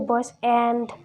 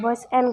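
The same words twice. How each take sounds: First: The word 'and' is strong and full. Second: The word 'and' is weak and reduced. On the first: The speaker calls it wrong. "We don't say boys and" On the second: The speaker calls it right. "it's weak. It's not so strong"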